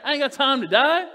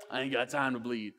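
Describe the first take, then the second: First: Louder, higher, fearless declaration; loud preacher's defiant cry; bold defiance. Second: Low, softer tough-guy movie line; lowered action-hero impression; Jesse Ventura tough guy. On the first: Acted. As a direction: proclaim it like Paul shrugging off death. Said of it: "That was Paul". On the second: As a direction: growl it like an action hero brushing off a wound. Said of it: "Jesse the Body Ventura".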